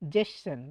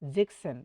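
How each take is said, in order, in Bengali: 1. মাঝের k-এর মতো ধ্বনিটি বাদ যায়। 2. মাঝের k-এর মতো ধ্বনিটি স্পষ্টভাবে উচ্চারিত হয়। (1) "আর একটা উচ্চারণ অনেকেই করে জেসেন" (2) "এটাও রাইট"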